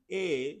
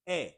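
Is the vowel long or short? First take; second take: long; short. First: The vowel is long and glides. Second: The vowel is short and quick. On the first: The speaker calls it wrong. "Instead of saying A" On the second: The speaker calls it right. "you're saying it very fast and short"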